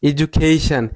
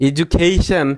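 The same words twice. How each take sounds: Both takes have the same delivery.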